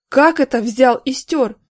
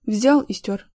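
First: Louder, slow stern question; thundering. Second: Said in the usual way. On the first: A narrator's reading. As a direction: thunder at the culprit. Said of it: "загремел Горин".

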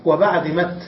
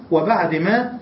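First: مت said ending in a clear t instead of ما; pausal ta. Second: Said in the usual way. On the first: Shown as a demonstration. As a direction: stop on مت with a crisp t. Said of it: "ثم بدل الهاء تاء". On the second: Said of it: "أصلها بعد ما أيضًا".

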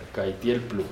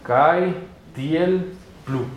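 First: Said in the usual way. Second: CAITIEL PLU very slowly, each syllable separate. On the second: Shown as a demonstration. Teacher saying it in Esperanto, very slow Caitiel plu. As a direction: spell out Caitiel plu in long, spaced syllables. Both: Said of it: "En esperanto se dice".

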